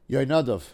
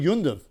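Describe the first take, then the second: First: The name is said in its full form. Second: The name is said in a shortened, clipped form. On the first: "if you want to say that correctly" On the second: "but I think Yundav sounds better"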